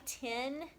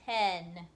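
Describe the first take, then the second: First: The vowel sounds like 'ih' in bit. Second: The vowel sounds like 'eh' in bed. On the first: The speaker calls it wrong. "If we say it with the I" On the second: The speaker calls it right. "if you're talking about the number, it's T E N"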